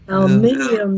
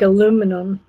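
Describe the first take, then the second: First: The word is said with five syllables. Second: The word is said with four syllables. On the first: "Aluminium, they say" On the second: "Like aluminum"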